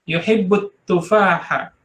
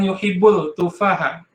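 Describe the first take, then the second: First: The l merges into a doubled t sound. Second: A clear l is heard before the t. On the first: The speaker calls it right. "karena huruf ta itu adalah samsiah. Jadi lamnya tidak dibaca" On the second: The speaker calls it wrong.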